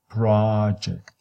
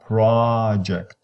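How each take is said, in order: First: The stress is on the first syllable. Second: The same.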